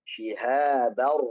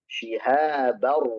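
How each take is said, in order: No difference in how they are said.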